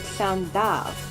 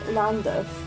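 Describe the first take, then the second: First: The place name is said the Welsh way. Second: The place name is said the English way. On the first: "in Welsh ... the place is called Llandaf" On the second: "the station's called Llandaff"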